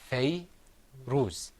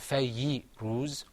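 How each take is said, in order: First: No vowel follows the y sound. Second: A short i vowel follows the y sound. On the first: The speaker calls it right. "It's fay ruz. So when there's no sound after the letter" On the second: The speaker calls it wrong. "or fayyi ruz"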